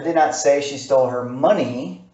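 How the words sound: The stress falls on the word money. "I'm going to take a word, money, and I'm going to enunciate it"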